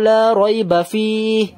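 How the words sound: It runs on through 'rayba' and stops after 'fihi'. "এখানে থামলাম না, বাট এখানে থামলাম।"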